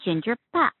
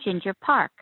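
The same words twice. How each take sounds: First: Park is said without an R sound. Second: Park is said with an R sound. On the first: This is the Korean way of saying the name. "pronounced without the R, as Pa" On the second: This is the American way of saying the name. "So in America"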